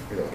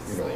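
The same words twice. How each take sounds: The two takes are said the same way.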